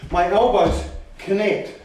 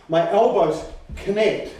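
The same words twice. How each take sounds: The two takes are said the same way.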